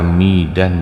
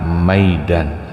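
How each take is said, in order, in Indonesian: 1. Vokal pertama adalah 'i' tunggal. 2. Vokal pertama adalah diftong 'ai'. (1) "atau dibaca midan juga boleh"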